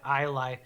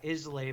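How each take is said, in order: First: The word is pronounced the way locals say it. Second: The word is pronounced as its spelling suggests. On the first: The speaker calls it right. "but I think they they pronounce it Islay" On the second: The speaker calls it wrong. "It's spelled like I S L A Y"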